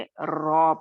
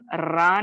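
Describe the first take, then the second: First: The r is heavy with a dark o-like vowel. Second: The r is light with a clear a vowel. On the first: The speaker calls it right. "बल्कि रॉ पढ़ेंगे" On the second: The speaker calls it wrong. "इसको हम रा नहीं पढ़ेंगे"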